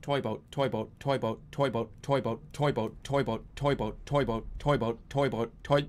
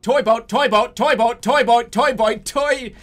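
First: Low, softer, even repetition; careful tongue-twister attempt. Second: Loud, higher-pitched rapid repetition; forceful tongue-twister attempt. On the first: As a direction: keep it low and steady, concentrating. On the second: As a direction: belt out the repetitions, high and hard. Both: Real, not acted.

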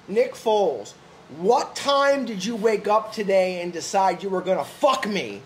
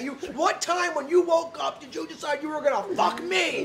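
First: Crazy accusation. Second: Higher, incredulous mock accusation; high-pitched, half-laughing lunatic accusation; crazy accusation. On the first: Retold or imitated. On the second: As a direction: hurl the question like a betrayed fan. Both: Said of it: "This is how crazy".

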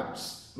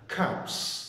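First: Cups with a soft unaspirated k; wrong unaspirated cups. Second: Cups with a strong puff of air on the k; aspirated cups. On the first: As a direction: say cups without the puff of air. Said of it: "mình không đọc là cups". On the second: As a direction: push air out hard on the k of cups. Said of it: "Mình phải bật hơi là cups". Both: Shown as a demonstration.

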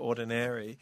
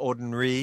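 First: "ordinary" with every syllable sounded; full pronunciation. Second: "ordinary" squeezed into fewer syllables; shortened pronunciation. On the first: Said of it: "หรือ". (ออกเสียง "ordinary" เต็มทุกพยางค์) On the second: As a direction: say "ordinary" as "ord-n-ree". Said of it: "ซึ่งออกเสียงเป็น". (ออกเสียง "ordinary" แบบย่อพยางค์) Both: Shown as a demonstration.

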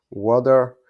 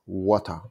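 First: American water. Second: British "water" said as "wotta" with a crisp t. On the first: Teacher shows how Americans say "water". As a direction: say "water" the American way, loud "wadder". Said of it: "So they are saying water". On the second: Teacher shows how British people say "water". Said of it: "British guys saying water". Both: Shown as a demonstration.

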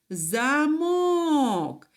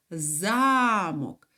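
First: Замок with a long, high мок; stress on second syllable. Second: Замок with за stressed and drawn out; stress on first syllable. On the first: Teacher naming the door lock, second-syllable stress on замок. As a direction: hold and lift the мок of замок. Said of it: "наголос уже падає на другий склад". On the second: Teacher naming the castle word, first-syllable stress on замок. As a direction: lean long on за in замок, let мок drop. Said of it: "в слові замок навпаки". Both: Shown as a demonstration.

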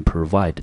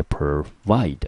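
First: Said in the usual way. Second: "provide" with the weight on vide; stress on second syllable. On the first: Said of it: "英文念成". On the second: Shown as a demonstration. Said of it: "中音节在第二个音节".

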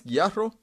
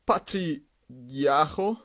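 First: Retry Guijarro as "gee-AH-ho", careful and rising; corrected pronunciation. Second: Said in the usual way. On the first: Shown as a demonstration. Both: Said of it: "I think it says like this".

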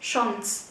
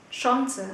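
First: Chance as "shons", final e silent; second variant. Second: Chance as "SHON-suh", final e sounded; first variant. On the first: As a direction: say "Chance" in one falling syllable with rounded vowel. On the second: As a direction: give "Chance" two syllables with a rounded vowel. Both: Shown as a demonstration. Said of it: "hai cách phát âm".

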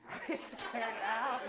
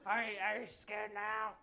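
First: Gruff pirate growl. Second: Low menace. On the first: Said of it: "now you sound like a pirate". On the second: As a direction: try to sound scary, low. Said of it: "the tone of your voice". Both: Acted.

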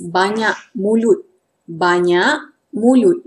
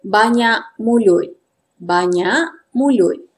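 First: "banyak mulut" in careful formal Malay pronunciation. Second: "banyak mulut" in everyday informal Malay pronunciation. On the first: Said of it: "Formal pronunciation is". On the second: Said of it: "this is the informal pronunciation". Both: Shown as a demonstration.

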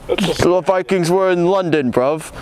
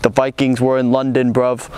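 First: Higher-pitched mock British accent; hammed-up British accent. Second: Lightly attempted British accent; a half-hearted go at a London British accent; bad British accent. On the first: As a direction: push the bad London British accent harder, pitched up. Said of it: "what's a British word?". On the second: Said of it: "I can't do accents".

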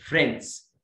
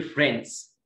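First: British-style one-syllable فريندز, light D; British pronunciation. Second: American-style one-syllable فريندز; American pronunciation. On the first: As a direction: say فريندز with a faint D before S. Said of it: "في البريتش". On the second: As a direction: say فريندز as 'frenz' without a heard D. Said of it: "في الامريكان بيقولوا". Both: Shown as a demonstration.

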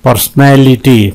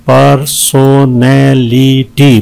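First: Said in the usual way. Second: "पर्सनैलिटी" slowly, in five stretched beats; syllable breakdown. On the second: Shown as a demonstration. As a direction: give every syllable of "पर्सनैलिटी" its own beat. ("पर्सनैलिटी" पाँच हिस्सों में धीरे) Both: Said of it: "पांच है इसमें".

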